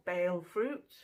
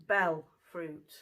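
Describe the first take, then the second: First: "bale" with a long a; pronounced "bale". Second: "bell" with a short e; pronounced "bell". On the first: Offering viewers another pronunciation, "bale" with long a. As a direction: say "bale" to rhyme with "sale". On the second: Naming the fruit for viewers, "bell" with short e. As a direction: say "bell" with the short vowel of "bed". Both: Shown as a demonstration. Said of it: "depending on how you pronounce it".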